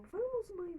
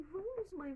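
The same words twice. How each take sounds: First: High, loud eager plea to come; a girl pulling her mother to go; pitched-up excited hurry; urging girl. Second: Put-on a girl still urging her mother on; pitched-up pleading hurry. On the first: Acted. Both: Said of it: "Então Miriam falou".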